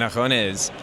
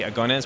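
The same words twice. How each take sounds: First: The G in the word is soft. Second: The G in the word is hard. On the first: The word means public competitions. "comes from a public competition" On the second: The word means elbows. "with a hard G means elbows"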